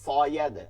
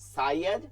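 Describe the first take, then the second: First: The s sound is heavy and emphatic. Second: The s sound is thin and light. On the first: "এটা যদি সদ হইতো তাহলে বলতাম কি সয়াদ" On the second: "সা চিকন সা"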